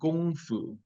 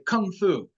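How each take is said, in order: First: It is pronounced the way Chinese speakers say it. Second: It is pronounced the way Americans say it. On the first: The speaker calls it right. "but in Chinese, it's actually Gong Fu" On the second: The speaker calls it wrong. "like you hear Americans say Kung Fu"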